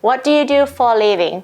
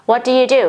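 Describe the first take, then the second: First: Slow, careful teacher model; drawn-out classroom demo; slow model reading. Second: Said in the usual way. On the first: Shown as a demonstration. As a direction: spell it out slowly for learners. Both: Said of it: "มาจากประโยคเต็มๆว่า".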